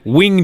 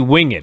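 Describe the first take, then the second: First: The word is said as one syllable. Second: The word is said as two syllables. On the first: The speaker calls it wrong. "not the winged eagle" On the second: The speaker calls it right. "it's absolutely winged"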